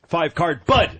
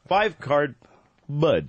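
First: There is no pause before 'Bud'. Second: There is a short pause before 'Bud'. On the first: The speaker calls it wrong. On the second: The speaker calls it right. "with a little pause"

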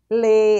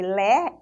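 First: The vowel is a closed e sound. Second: The vowel is an open e sound. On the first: The speaker calls it right. "é o e" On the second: The speaker calls it wrong. "a gente não lê lé"

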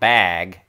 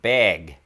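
First: The vowel is an open a sound. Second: The vowel is a closer e-like sound. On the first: "It's not bag" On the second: "it's more like beg"

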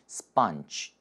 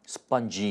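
First: The final sound is relaxed and voiceless. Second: The final sound is voiced and forceful. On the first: The speaker calls it right. "목소리에 힘이 들어가지 않죠?" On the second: The speaker calls it wrong. "이렇게 하지 마시고"

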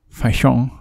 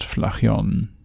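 First: The word is said with French-style sounds. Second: The word is read with plain German sounds.

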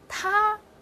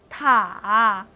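First: The pitch stays high and level. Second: The pitch dips low then rises.

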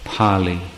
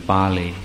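First: The word begins with a P sound. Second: The word begins with a B sound. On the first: "I pronounce that as Pali" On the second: "rather than Bali"

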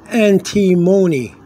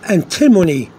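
First: The stress falls away from the i syllable. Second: The stress falls on the syllable with i. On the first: The speaker calls it right. "It's antimony" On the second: The speaker calls it wrong. "you could put a stress on the I"

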